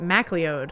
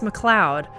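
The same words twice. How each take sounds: First: The name is said the American way. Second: The name is said the Scottish way. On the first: This is a newer American habit. The speaker calls it wrong. "they pronounce it MacLeod. So I think that's a very like American or like newer thing" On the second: This is how people in the UK and Canada say it. The speaker calls it right. "the Scots and many other people ... it's MacLeod"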